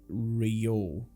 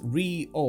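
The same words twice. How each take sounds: First: The first vowel sound is not stressed. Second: The first vowel sound is strongly stressed. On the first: The speaker calls it right. "you don't really stress that I sound too much" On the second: The speaker calls it wrong. "the stress is in the wrong place"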